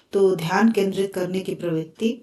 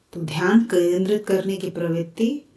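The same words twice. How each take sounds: No difference in how they are said.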